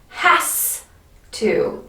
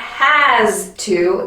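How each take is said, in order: First: The s sounds like a hissing s. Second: The s sounds like a buzzing z. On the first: The speaker calls it right. "with that voiceless S ... but a s sound" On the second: The speaker calls it wrong. "it's not has to ... So not a z"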